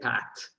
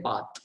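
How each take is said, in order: First: It is said with an American accent. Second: It is said with an Indian accent.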